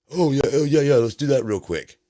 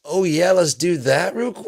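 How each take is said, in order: First: Higher, louder, hurried; mock flustered Trump. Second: Much higher, louder, squeaky repeat; squeaky mock Trump. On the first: President suddenly remembering the signing, flustered and hammed-up. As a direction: blurt it out like a caught-out boss. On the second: Mocking the president's forgetfulness, squeaky and high. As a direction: squeak it out like a cartoon.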